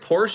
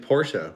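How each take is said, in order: First: The word ends without a final vowel sound. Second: The word ends with a final 'uh' sound. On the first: The speaker calls it wrong. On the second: The speaker calls it right.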